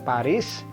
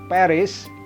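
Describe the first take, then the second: First: It is said with an Indonesian pronunciation. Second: It is said with an English pronunciation. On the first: "Kalau di bahasa Indonesia kita baca Paris" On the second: "di bahasa Inggris Paris"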